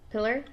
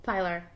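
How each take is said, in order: First: Pillar? said "PILL-er", short i, rising; pron pillar. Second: Pilar said as "PIE-lar"; pron pilar. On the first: Checking friends' word Pillar?, short "PILL-er", questioning. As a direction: ask Pillar? as "PILL-er" with a rise. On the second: Showing friends how she says Pilar, PIE-lar. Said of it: "is a pilar". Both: Shown as a demonstration.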